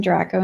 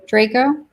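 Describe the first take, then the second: First: "Draco" with a short a, as in Dracula. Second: "Draco" as DRAY-koh, rising; long-a Draco. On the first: Naming a project to friends, "Draco" said with a short a like Dracula. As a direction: say "Draco" with the first vowel of "dragon". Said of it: "all I could think was Dracula". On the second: Checking the name mid-sentence, "Draco" tried as DRAY-koh. Speaker corrects own pronunciation of name. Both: Real, not acted.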